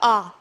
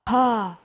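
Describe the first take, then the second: First: The vowel starts cleanly without extra breath. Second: The vowel starts with an audible breathy onset. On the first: "не просто а" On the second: "он может брать с придыханием"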